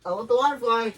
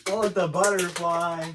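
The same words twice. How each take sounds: First: "water fly" said instead of "butterfly", loud; slip of the tongue. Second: Said in the usual way. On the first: Real, not acted. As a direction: blurt "water fly" by mistake.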